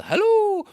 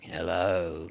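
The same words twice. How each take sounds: First: Very high, loud singsong hello; welcoming holler from a distance; friendly calling out. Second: Low, drawn-out creepy greeting; sinister hello that makes you run; ominous stranger. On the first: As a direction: call out a soaring, harmless greeting. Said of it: "but this was a". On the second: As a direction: greet them with low menace. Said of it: "you might run the other way". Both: Shown as a demonstration.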